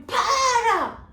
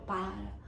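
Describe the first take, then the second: First: Very high, loud desperate yell of Para; shouted stop. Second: Said in the usual way. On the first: Acted. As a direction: scream Para to stop him. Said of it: "chegou perto da professora e falou pro homem". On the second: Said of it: "Quando falou".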